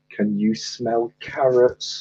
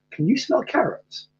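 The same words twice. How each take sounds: First: Slow, drawn-out joke punchline; slow repeat. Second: High, soft snowman voice; joke character voice. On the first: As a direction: spell out the punchline slowly at normal pitch. Repeats punchline for puzzled listener. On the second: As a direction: raise the pitch for the snowman's question. Telling joke, voicing a snowman. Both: Acted.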